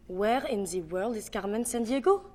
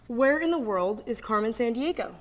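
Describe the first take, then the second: First: French accent, rising at the end. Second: Said in the usual way. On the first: Shown as a demonstration. Breaking down the Carmen Sandiego line, French accent. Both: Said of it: "how to do a French accent".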